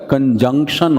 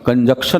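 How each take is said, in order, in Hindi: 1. इस शब्द में 'j' से पहले 'n' बोला जाता है। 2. इस शब्द में 'j' से पहले 'n' नहीं बोला जाता। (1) "कंजंक्शन होता है" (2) "कंजक्शन नहीं होता है"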